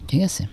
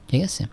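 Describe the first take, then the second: The two takes are said the same way.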